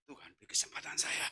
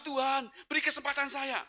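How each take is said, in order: First: Low whispered plea; prayer in the heart. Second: High, strained gasped plea; desperate prayer aloud. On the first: Driver afraid to pray aloud begs God, whisper. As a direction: whisper it inwardly, very soft. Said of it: "hanya doa dalam hati". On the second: Breathless driver begs God for a chance, desperate cry. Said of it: "Saya sudah nggak berani doa lagi". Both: Retold or imitated.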